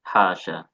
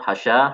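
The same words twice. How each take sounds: First: Both vowels in the word are long. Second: The vowel after the h sound is short. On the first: "panjang dua-duanya" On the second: "hanya yang pendek"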